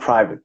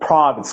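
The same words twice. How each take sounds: First: Said in the other man's plain local accent. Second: Said in a polished, posh-sounding accent. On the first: It sounds like talking about genitals. The speaker calls it wrong. "not private. I feel insulted for the way you're pronouncing" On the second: It names an exclusive school properly. The speaker calls it right. "It's a private school"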